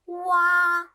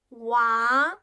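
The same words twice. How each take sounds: First: The pitch stays high and level. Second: The pitch rises from middle to high.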